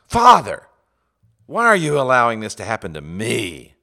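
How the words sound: The stress falls on the word me. The speaker feels like a victim. The speaker calls it wrong. "You don't ask"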